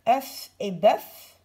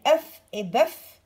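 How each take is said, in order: First: Œuf et bœuf slow, with an open eu and a clear final F; F sounded. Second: Œufs and bœufs said slow with a closed eu and no F; plural, F silent. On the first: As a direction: bite off the F at the end of œuf and bœuf. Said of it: "on entend le F". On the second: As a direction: drop the F, closed eu, slowly. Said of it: "on n'entend pas le F". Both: Shown as a demonstration.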